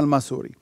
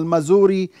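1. الصوت في الوسط هو صوت s الصفيري. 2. الصوت في الوسط هو صوت z الطنّان. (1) "بتنطقها بالسين" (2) "بتنطقها بالزي بالزين"

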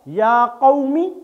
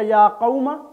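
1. यह वाक्यांश इ स्वर पर खत्म होता है। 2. यह वाक्यांश अ स्वर पर खत्म होता है।

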